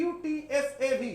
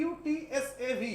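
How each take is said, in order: Both takes have the same delivery.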